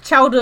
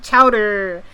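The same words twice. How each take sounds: First: Said in the usual way. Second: "chowder" drawn out with a hard American r; mock-American "chowder", stretched at the end; practised American pronunciation. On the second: Shown as a demonstration. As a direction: slowly overdo the final r in "chowder". Corrects herself to the practised pronunciation.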